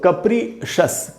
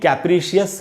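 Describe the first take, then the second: First: The ending is a single syllable, 'shus'. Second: The ending is two syllables, 'shee-us'. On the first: The speaker calls it right. "उच्चारण क्या है दोस्तों?" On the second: The speaker calls it wrong. "इसको भी कैप्रिशियस नहीं पढ़ना है"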